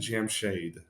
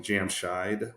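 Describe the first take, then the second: First: The second vowel sounds like 'ay'. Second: The second vowel sounds like 'eye'. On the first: The speaker calls it right. "It's actually Jamshade, like shade" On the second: The speaker calls it wrong. "with a long I is not that that's how it's actually pronounced"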